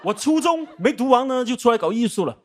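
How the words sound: It is said in a formal broadcaster voice.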